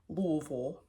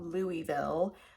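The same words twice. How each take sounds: First: The name is said the local way. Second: The name is said the outsider way. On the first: The speaker calls it right. "If you're a native, you know" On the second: The speaker calls it wrong. "not Louisville"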